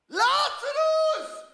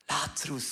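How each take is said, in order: First: The name is shouted loudly. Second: The name is said quietly, without shouting.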